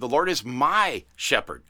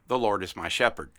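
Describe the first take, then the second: First: The phrase is said with strong, marked emphasis. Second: The phrase is said plainly, without strong emphasis. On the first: The speaker calls it right. "If I could italicize that and embolden that" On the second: The speaker calls it wrong. "I didn't say it like that"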